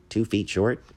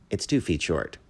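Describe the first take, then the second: First: Higher, puzzled echo with a rising end; blankly. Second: Mildly impatient restatement, falling at the end; a little impatient. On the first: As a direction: ask it back, not understanding. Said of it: "The bat said blankly". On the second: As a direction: repeat it with a touch of impatience. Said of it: "a little impatiently". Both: A narrator's reading.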